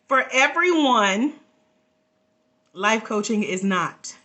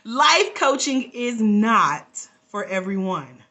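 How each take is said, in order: First: It is said in a Yoda impression voice. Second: It is said in her own natural voice.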